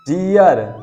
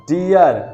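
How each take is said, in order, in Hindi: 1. r से पहले स्वर 'ee-uh' की तरह ग्लाइड करता है। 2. r से पहले स्वर 'ee-uh' की तरह ग्लाइड करता है।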